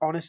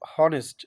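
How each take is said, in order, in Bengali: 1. শব্দটি স্বরধ্বনির উচ্চারণ দিয়ে শুরু হয়। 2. শব্দটি h-এর উচ্চারণ দিয়ে শুরু হয়। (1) "এখানে অনেস্ট উচ্চারণ" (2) "এখানে যদি এইচ এর উচ্চারণ হ হইতো তাহলে হনেস্ট"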